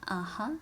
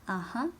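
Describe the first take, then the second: Both takes have the same delivery.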